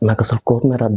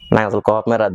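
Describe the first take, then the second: First: The line is delivered in a romantic way. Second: The line is delivered in a comic way. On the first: "romantic" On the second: "comedy"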